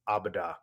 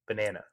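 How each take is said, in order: First: The word is said as a toddler's 'abada'. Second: The word is said as a standard 'banana'. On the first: A small child is saying the word. The speaker calls it wrong. "the way he pronounced it was like abada" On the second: An older child is saying the word. The speaker calls it right. "But now it's banana"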